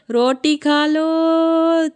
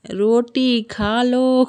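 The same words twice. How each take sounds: First: High, very slow, drawn-out call of "रोटी खा लो", louder; child's loud call. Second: Put-on slow, stretched child's "रोटी खा लो", lightly raised in pitch; a hint of a little girl drawing out "रोटी खा लो"; imitating a child calling. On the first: Retold or imitated. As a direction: call out "रोटी खा लो" across the colony like a little girl. (बच्ची की तरह ऊँची, बहुत खींची हुई पुकार "रोटी खा लो") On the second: (बच्ची की नकल में धीरे खींचा हुआ "रोटी खा लो") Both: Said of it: "colony में हल्ला कर रही थी".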